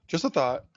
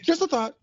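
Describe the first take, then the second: First: Said in the usual way. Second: Mock high aside. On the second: Comic repeat, second plain.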